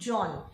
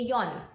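First: The name begins with a J sound. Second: The name begins with a Y sound. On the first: "if your name is John" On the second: "J in German is pronounced like a Y"

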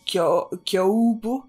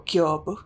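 First: The O and U are pronounced as separate vowels. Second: The O and U merge into one long O. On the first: The speaker calls it wrong. "the U in Kyobu is, like, fooling you into pronouncing it as" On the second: The speaker calls it right. "the O-U back-to-back are meant to pronounce as long O"

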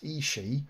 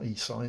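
First: The name ends with a 'shee' sound. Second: The name ends with an 'eye' sound. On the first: The speaker calls it right. "it's Ishii" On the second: The speaker calls it wrong. "it's not Isai"

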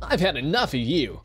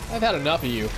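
First: It is said in a put-on cartoon character voice. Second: It is said in the speaker's natural voice.

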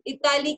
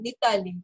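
First: The word begins directly with a vowel sound. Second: The word begins with a linked n sound. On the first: "Itali ki jagah" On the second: "main Nitali bolungi"

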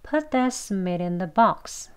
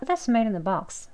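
First: The sentence is spoken fast and relaxed. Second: The sentence is spoken very fast. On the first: "대화 속에서 빨리 발음하거나 편하게, 부드럽게 발음하게 되면요" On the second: "더 빨리 발음하시게 되면"

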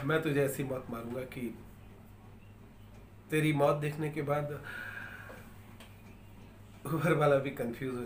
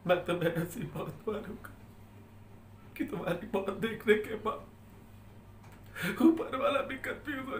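First: It is said in a soft, romantic voice. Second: It is said in a crying, tearful voice.

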